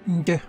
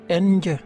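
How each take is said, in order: First: The nasal blends into the consonant as one sound. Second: The nasal is said as a separate syllable. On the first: The speaker calls it right. "mais plutôt nje" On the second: The speaker calls it wrong. "ne pas dire nje"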